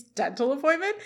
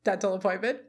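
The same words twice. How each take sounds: First: "appointment" lifted higher as a question; questioning repeat. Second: Said in the usual way. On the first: Retold or imitated. Turner echoing Feeney's excuse, questioning lift on "appointment". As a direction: echo it back, raising "appointment" in disbelief. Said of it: "And Turner repeats". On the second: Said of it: "and Feeney says".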